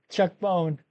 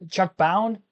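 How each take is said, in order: First: The surname sounds like the word 'bone'. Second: The surname sounds like the word 'bound'. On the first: "I feel like I've always said Chuck Bone" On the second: "That doesn't sound right to me"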